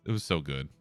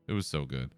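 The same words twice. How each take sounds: The two takes are said the same way.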